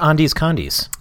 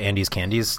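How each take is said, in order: First: The second word starts with a 'con' sound. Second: The second word starts with a 'can' sound. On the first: The speaker calls it wrong. "That is a joke because obviously it's called Andes Candies" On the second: The speaker calls it right. "obviously it's called Andes Candies"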